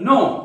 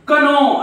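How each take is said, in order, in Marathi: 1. सुरुवातीला k चा आवाज उच्चारला जात नाही. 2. सुरुवातीला k चा आवाज उच्चारला जातो. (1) "फक्त नो" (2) "कनो असं म्हणतात का तुम्ही?"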